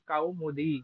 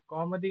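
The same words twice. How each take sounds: First: It is said with the careful Sanskrit pronunciation. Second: It is said with the everyday colloquial pronunciation. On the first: The speaker calls it right. "ये उच्चारण दोष होता है" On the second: The speaker calls it wrong. "कौमुदी नहीं है"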